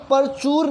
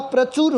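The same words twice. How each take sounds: First: परचूर said with a full vowel, पर चूर; teacher mimics the common mistake, परचूर; wrong pronunciation. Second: प्रचुर with the cluster प्र, short चु; correct pronunciation. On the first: Teacher to students, mimicking the wrong परचूर. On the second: Teacher to students, giving the correct प्रचुर. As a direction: say it crisply as प्रचुर. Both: Shown as a demonstration. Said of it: "प्रचुर होता है".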